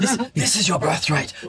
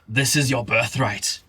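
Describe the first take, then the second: First: It is said in a put-on character voice. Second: It is said in his ordinary voice.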